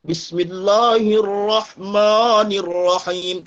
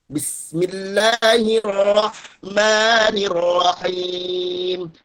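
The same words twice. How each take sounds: First: Bismillahirrahmanirrahim with every A rounded towards a thick O; thick vowels. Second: Bismillahirrahmanirrahim langsam rezitiert, helles dünnes A mit lächelnden Lippen; dünne Vokale mit Lächeln. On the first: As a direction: recite Bismillahirrahmanirrahim slowly with heavy, pouted O-like vowels. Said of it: "Jadi tebal semua huruf tuh". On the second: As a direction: recite Bismillahirrahmanirrahim drawn out, A vowels thin, lips in a smile. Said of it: "Baca Quran tuh senyum". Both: Shown as a demonstration.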